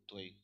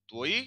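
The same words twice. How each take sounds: First: त्वई as "tva-EE"; weight on the final ई of त्वई; two-syllable form. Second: त्वई as "tvoy", one rising syllable; o into y-glide in त्वई; one-syllable form. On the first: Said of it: "stress इस पे है". (त्वई में ज़ोर ई पर) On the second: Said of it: "यहाँ पे ये क्रातकय है". (त्वई एक सिलेबल में) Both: Shown as a demonstration.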